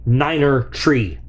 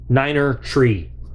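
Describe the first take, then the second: The two takes are said the same way.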